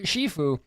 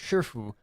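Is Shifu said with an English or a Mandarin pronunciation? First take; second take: English; Mandarin. First: It is said with an English-style pronunciation. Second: It is said with a Mandarin pronunciation. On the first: This is how the film's character name is said. The speaker calls it wrong. "is just a bad pronunciation of" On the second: This is the Chinese word for master. The speaker calls it right. "the Chinese word for master"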